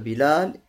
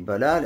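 First: The first vowel is i. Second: The first vowel is a. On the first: "бас касра" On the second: "бас фатхай"

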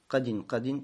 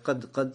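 First: The word ends with an added -in sound. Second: The word ends on a bare consonant. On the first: "можно с танвином" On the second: "можно с сукуном сказать"

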